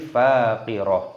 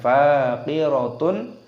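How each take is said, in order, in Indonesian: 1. Kata ini berakhir dengan -ah yang lembut. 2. Kata ini berakhir dengan -atun penuh. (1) "tapi faqirah" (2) "bukan faqiratun"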